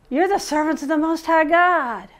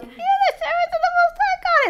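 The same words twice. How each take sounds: First: Said in the usual way. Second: Very high, squealing witch; witchy voice. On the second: Acted. Possessed slave girl following Paul, high witchy voice. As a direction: screech it thinly like a witch. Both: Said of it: "I always do my witchy voice".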